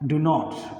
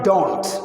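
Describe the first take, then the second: First: It is said as two full separate words. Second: It is said as one contracted word. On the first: The speaker calls it wrong. "Spoken English ഡു നോട്ട് എന്ന് പറയരുത്" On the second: The speaker calls it right. "അതാണ് style"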